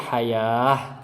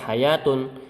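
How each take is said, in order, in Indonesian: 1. Kata ini berakhir dengan bunyi h yang lembut. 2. Kata ini berakhir dengan bunyi t dan vokal. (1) "kalau berhenti dibaca hayah" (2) "tidak berhenti ditul, dibaca hayatun"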